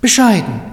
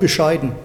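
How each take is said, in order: First: The word is said in a warm, approving tone. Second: The word is said in a dismissive, disparaging tone. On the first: The person is modest and content. "Das Wort bescheiden oder Bescheidenheit ist ja je nach Tonlage, kann das ja sehr Wechselbedeutung haben" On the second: The food was poor. "Und du sagst, ja"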